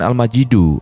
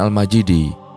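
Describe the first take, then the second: First: The word ends with a final 'u' vowel. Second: The word ends with a final 'i' vowel. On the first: God himself is most noble or glorious. "Cara pertama, bisa dengan Al-Majidu" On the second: God's throne is immensely great. "Cara kedua, bisa dengan Al-Majidi"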